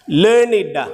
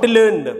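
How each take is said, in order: First: It is said with the adjective pronunciation. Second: It is said with the verb pronunciation. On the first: The word describes someone as scholarly. The speaker calls it right. "Learned, not learned" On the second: The word is the past form of a verb. The speaker calls it wrong. "not learned. People say learned. Learned is a verbal word"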